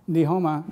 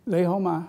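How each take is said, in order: First: The greeting begins with an N sound. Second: The greeting begins with an L sound. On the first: The speaker calls it wrong. "No, they don't say ni" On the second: The speaker calls it right. "there's no N sound in Cantonese. So they say Le Homa"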